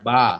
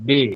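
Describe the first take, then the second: First: The vowel is a straight open 'a' sound. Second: The vowel is bent toward an 'e' sound. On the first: This is the Arabic way of saying the letter. "বা হচ্ছে আরবি হরফ সোজা" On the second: This is the Urdu way of saying the letter. "বে বলবেন তখন এমালা হবে"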